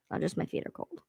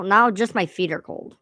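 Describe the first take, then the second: First: Unvoiced whispered echo. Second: Said in the usual way. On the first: Real, not acted. Complaining to herself about cold feet, whispered. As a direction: breathe it as a private aside.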